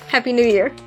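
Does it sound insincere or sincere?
sincere. It sounds warm and sincere.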